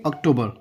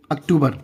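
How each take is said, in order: First: English "अक्टूबर", ok-TOH-ber; English pronunciation. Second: Hindi "अक्टूबर", ak-too-bar; Hindi pronunciation. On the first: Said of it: "क्या बोलेंगे?". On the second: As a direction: say "अक्टूबर" with short a and oo. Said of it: "यानी कि". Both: Shown as a demonstration.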